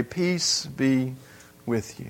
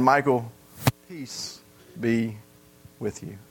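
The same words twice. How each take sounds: First: Softer, hushed, tender blessing; tender Jesus voice. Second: Much softer, lower, slow blessing; whisper-soft comfort to a scared man; tender Jesus voice. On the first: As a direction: speak it gently like a comforting blessing. Jesus's comforting words, softly quoted. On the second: Imagined Jesus speaking to him. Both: Acted.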